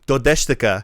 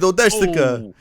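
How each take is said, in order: First: It is said with a plain Japanese pronunciation. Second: It is said with an exaggerated Italian accent. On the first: "if the word was like" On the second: "We would pronounce all of our Japanese in Italian accents"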